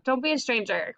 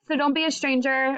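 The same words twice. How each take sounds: First: Said in the usual way. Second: Higher, tearful plea that cracks; real tears catching in the throat; voice breaking. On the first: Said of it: "I'm crying". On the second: Real, not acted. Teacher saying goodbye to her class, voice breaking with tears. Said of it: "Oh my gosh, I'm crying".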